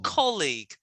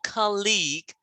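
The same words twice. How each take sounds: First: The stress is on the first syllable. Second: The stress is on the second syllable. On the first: The speaker calls it right. "Which syllable stress? First or second? First. So make sure when you say it" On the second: The speaker calls it wrong.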